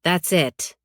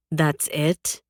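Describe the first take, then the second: First: "That's it" falling to a final close; firm statement. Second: "That's it" rising at the end as a question. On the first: She answers Tristan with a glare, firm falling "That's it". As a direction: shut it down with "That's it", dropping on "it". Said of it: "I say, glaring at him". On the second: Tristan studying her poker face, questioning "That's it" with a rise. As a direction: probe with "That's it", lifting on "it". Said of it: "Tristan asks, studying my poker face". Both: A narrator's reading.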